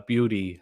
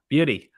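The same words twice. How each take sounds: First: Said in the usual way. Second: "beauty" pitched higher, with a falling end; exclaimed "beauty". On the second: Shown as a demonstration. Streamer catches on to chat's word, exclaiming "beauty". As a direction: call out "beauty" as a cheer.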